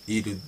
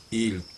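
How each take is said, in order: Both takes have the same delivery.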